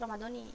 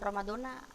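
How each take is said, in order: First: The word ends with an 'i' vowel. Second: The word ends with an 'a' vowel. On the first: The word is joined to the following noun in a possessive construction. The speaker calls it right. "tapi Ramadoni" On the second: The word stands alone, not joined to a following noun. The speaker calls it wrong. "bukan Ramadona"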